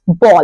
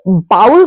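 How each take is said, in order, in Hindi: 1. यह स्वर 'go' के 'o' जैसा सुनाई देता है। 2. यह स्वर 'cow' के 'ow' जैसा सुनाई देता है। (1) "करेक्ट प्रोनाउंसिएशन होता है" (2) "ये गलत प्रोनाउंसिएशन है"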